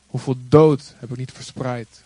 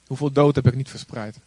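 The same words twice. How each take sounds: First: Slow, louder with weight on "dood"; emphatic. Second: Said in the usual way. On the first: Real, not acted. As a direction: lean hard on "dood", slowly. Repeated rhetorical question, emphatic.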